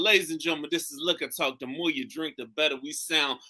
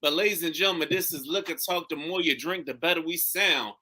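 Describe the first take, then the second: First: Announcer-style show intro, repeated on request; repeating the podcast opener for the co-host; show intro again. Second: Announcer-style show intro; podcast host welcoming listeners. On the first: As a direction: give the welcome once more like a host. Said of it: "Give it to me one more time". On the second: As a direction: open the show like a radio host. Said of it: "Say, say what you said again". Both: Shown as a demonstration.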